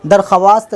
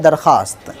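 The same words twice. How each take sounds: First: दरख्वास्त said as dar-kha-wast, sounding the w; दरख्वास्त with the written w voiced; spelled-out pronunciation. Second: दरख्वास्त said as darkhast, silent w; दरख्वास्त with the vav dropped; correct pronunciation. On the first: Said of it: "दरख्वास्त लिखा आता है". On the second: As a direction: say दरख्वास्त as spoken, no w sound. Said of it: "लेकिन पढ़ा जाता है दरख्वास्त". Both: Shown as a demonstration.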